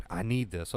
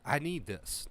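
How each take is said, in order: First: "need" klar betont, das Ganze etwas tiefer; stress on need. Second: "I" gesprochen mit Betonung, dann "need this" leiser fallend; stress on I. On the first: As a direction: lean on the word need. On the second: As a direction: lean on the word I. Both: Shown as a demonstration. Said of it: "Catch that".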